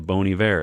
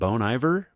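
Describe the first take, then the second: First: The name sounds like French for good winter. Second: The name is read out like English words. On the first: It means good winter. The speaker calls it right. "it sounds like the French word for good winter" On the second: A reader is guessing from the spelling. The speaker calls it wrong. "How do you say that?"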